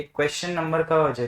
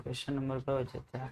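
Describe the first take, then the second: First: Said in the usual way. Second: Asked at a near-whisper level, much softer; very quiet. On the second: Shown as a demonstration. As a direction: drop the voice right down to test the class. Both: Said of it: "હું કેટલું ધીમું બોલું?".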